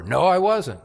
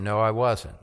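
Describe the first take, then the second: First: Firmer, higher denial with weight on I; insistent denial. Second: Said in the usual way. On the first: Retold or imitated. Peter denying again under pressure, firmer insistent voice. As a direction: push back harder on I.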